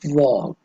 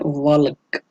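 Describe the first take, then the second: First: The L sound is not pronounced at all. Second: The L sound is pronounced in the word. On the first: The speaker calls it right. "बोलते वक्त एल silence रहती है, तो हम कहते हैं वॉक" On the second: The speaker calls it wrong. "ल means एल की भी आवाज आती है"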